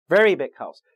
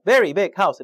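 First: VERY punched loud, "big house" lighter; front-loaded beat on very; stress on first word. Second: "very big house" with every word hit hard; loud beat on each of very, big, house; equal stress. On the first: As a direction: hit very, then ease off on big house. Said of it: "앞에 단어에 강세 주세요". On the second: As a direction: punch very, big and house all alike. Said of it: "이렇게 있는 게 아니라". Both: Shown as a demonstration.

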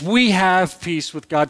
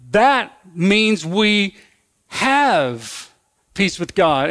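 First: Said in the usual way. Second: That means we drawn out very slowly; slow stress. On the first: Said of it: "Through faith". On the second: Shown as a demonstration. Preacher explaining peace to congregation, slow and emphatic. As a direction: land on have peace with God deliberately. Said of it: "since we've been justified".

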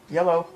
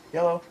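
Both takes have the same delivery.

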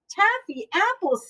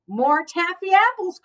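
First: High-pitched echo, dropping at the end; lightly voiced Missus Rogers. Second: High-pitched call for more. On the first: Missus Rogers echoing the request for taffy apples, lightly voiced. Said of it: "said Missus Rogers". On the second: Mister Rogers asking for more taffy apples, calling out. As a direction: call it out brightly pitched, without shouting. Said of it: "called Mister Rogers". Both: A narrator's reading.

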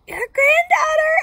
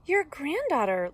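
First: Very high, loud, slow squeak. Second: Put-on higher, louder girl's voice; lilting girl announcing herself, without squeaking; lightly voiced Little Red. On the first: Wolf posing as granddaughter at the door, loud high squeak. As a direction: squeal it in a fake little-girl voice. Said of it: "I squeaked". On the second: Little Red answering at Granny's door, lifted girlish voice. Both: A narrator's reading.

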